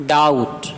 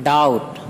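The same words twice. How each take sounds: No difference in how they are said.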